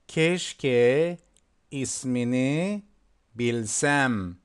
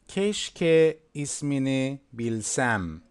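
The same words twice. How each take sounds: First: It is said slowly. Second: It is said faster.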